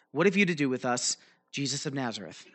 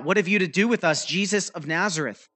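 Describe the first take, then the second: First: Said in the usual way. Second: Demon crying out. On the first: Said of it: "He says". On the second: Acted. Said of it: "he cried out".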